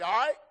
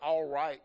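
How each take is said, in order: First: It is squeezed into a single syllable. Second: It is said fully as two syllables. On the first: "one syllable kind of thing" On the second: "we don't say all right, y'all, like you nice gentlemen here"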